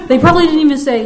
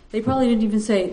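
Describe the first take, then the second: First: Laughing. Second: Said in the usual way. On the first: Real, not acted.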